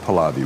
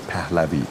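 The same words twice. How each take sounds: First: The name is said with an American pronunciation. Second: The name is said with a native Persian pronunciation. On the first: "But Americans say" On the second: "We say"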